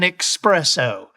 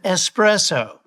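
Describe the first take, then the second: First: The word starts with an 'ex' sound. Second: The word starts with an 'es' sound. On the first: The speaker calls it wrong. "There's no X in the word" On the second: The speaker calls it right. "What you want is an espresso"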